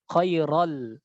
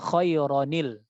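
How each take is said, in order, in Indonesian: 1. Bunyi n pada tanwin dihilangkan. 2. Bunyi n pada tanwin dibaca. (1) "salah baca"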